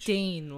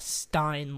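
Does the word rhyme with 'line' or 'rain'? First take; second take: rain; line. First: The vowel sounds like the one in rain. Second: The vowel sounds like the one in line. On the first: It names a mark left by spilled food. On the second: It names a mug for beer. "Not a Stein like you put beer in"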